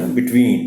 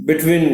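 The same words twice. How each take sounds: First: Between with a long held ween; between, stretch out the ween; correct between. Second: Between with a clipped short ween; between, cut the ween short; wrong between. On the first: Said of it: "लंबी करके पढ़नी है". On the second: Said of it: "नहीं कहना". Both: Shown as a demonstration.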